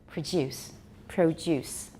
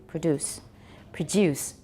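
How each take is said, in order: No difference in how they are said.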